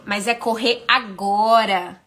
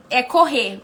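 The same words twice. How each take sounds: First: "agora" dwelt on, slow and falling; stress on agora. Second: Said in the usual way. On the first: Shown as a demonstration. To a listener, "agora" stressed slow and falling. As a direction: lean slowly into "agora".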